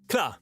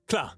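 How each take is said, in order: No difference in how they are said.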